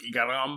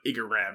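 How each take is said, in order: First: The name is said with Japanese-style pronunciation. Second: The name is said with English-style pronunciation. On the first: "I usually say it the way they would say it in Japanese" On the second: "is the same name"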